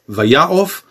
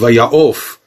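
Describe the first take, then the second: First: The stress falls before the last syllable. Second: The stress falls on the last syllable. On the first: "עין בקמץ קטן" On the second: "עין בחולם ומלרע"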